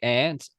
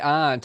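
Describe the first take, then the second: First: The word sounds like 'ant'. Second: The word does not sound like 'ant'. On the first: "Americans say aunt, ... as in an ant" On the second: "We say aunt"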